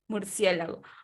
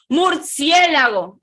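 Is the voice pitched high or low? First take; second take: low; high. First: The word is said at a lower pitch. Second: The word is said at a much higher pitch.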